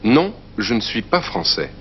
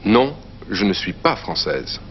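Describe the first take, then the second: First: Français said fran-SAY with silent final s, stress on pas; masculine français. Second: Française said slowly as fran-SEZ with a voiced z at the end; slow, careful française ending on a buzzing z; feminine française. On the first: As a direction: finish français on an open vowel, no final consonant. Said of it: "You could answer". (français with no z sound at the end) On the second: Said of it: "Or, if you're a woman". (française with an audible final z) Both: Shown as a demonstration.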